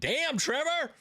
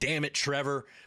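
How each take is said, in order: First: It sounds impressed and admiring. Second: It sounds annoyed and frustrated.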